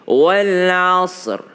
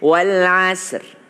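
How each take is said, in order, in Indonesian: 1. Bunyi s itu berat dan tebal. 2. Bunyi s itu ringan dan tipis.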